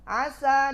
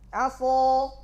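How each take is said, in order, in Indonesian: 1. Bunyi s ringan, lidah diturunkan. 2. Bunyi s berat, lidah dinaikkan.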